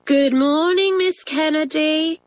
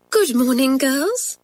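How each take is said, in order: First: High, drawn-out singsong schoolgirl greeting; class chorus. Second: Higher-pitched teacher greeting her class; teacher's greeting. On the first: Whole form answers their teacher, chorused singsong. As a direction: chant it slowly like a whole class. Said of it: "chorused the form". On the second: Nervous teacher sits down and greets her class, higher-pitched greeting. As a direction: greet the girls as their schoolmistress. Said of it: "said Miss Kennedy". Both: A narrator's reading.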